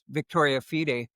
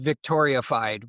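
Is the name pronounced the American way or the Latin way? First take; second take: Latin; American. First: It is pronounced with Latin vowels and endings. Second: It is pronounced with an American-style ending. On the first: The speaker calls it right. "what's Latin for success assurance, and it's Victoria Fide" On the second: The speaker calls it wrong. "would be the way we would pronounce that in America"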